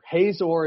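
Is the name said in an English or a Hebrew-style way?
English. It is said with plain English sounds. "pronounce it like a English speaker"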